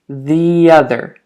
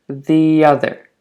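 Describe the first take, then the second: The two takes are said the same way.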